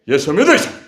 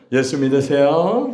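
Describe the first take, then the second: First: It is said in a harsh, forceful tone. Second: It is said in a gentle, friendly tone.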